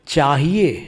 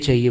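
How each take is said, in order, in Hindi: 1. यह शब्द अपने मानक रूप में बोला गया है। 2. यह शब्द एक बदले हुए, सरल रूप में बोला गया है। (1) "ये शब्द हमसे बनता ही नहीं था" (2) "हमेशा हम चाहिए चाहिए बोलते थे"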